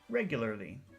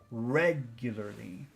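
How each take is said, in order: First: The word is said plainly, without extra emphasis. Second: The word is said with strong, focused emphasis. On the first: "Here's normal regularly" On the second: "Focus regularly"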